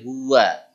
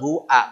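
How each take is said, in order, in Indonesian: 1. Bunyi w menghubungkan kedua vokal. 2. Hamzah memisahkan kedua vokal. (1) "tapi huwa" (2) "bukan hu'a"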